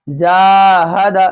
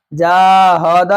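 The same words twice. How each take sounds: First: Long "जा", then quick short ha-da in "जाहद"; quick zabar endings. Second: "जाहद" as jaa-haw-daa, later vowels dragged; wrongly stretched endings. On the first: Teacher correcting the reading, long then short endings. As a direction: stretch only the first syllable of "जाहद". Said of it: "ज़बर को जल्दी पढ़ना है". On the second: Teacher showing how not to read, all vowels stretched. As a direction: draw out ha and da in "जाहद". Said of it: "नहीं". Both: Shown as a demonstration.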